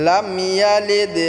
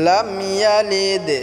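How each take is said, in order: No difference in how they are said.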